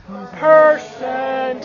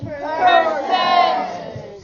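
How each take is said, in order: First: Percent said low and deep. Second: Said to the ceiling. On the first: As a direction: drop the voice down for Percent. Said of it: "Say percent in a deep voice". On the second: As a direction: project Percent upward. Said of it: "Say it to the ceiling". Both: Shown as a demonstration.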